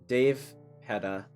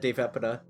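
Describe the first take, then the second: First: The name has a hard stop after Dave. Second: The name has an extra syllable after Dave. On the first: "It just feels more like a hard stop" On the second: "I'm adding a syllable there"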